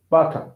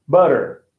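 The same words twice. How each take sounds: First: British "butter", hard T, no final R; crisp T in "butter", British style; British accent. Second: American "butter" with a tapped T and final R, lower; American accent. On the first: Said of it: "Okay, United Kingdom". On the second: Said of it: "U S". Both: Shown as a demonstration.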